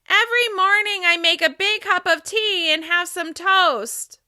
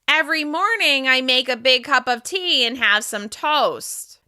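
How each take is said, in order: First: The voice resonates high, at the top of the head. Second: The voice resonates through the nose, sounding nasal. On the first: "Now I'm going to speak with resonance at the top of my head" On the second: "Now I'm going to speak with nasal resonance"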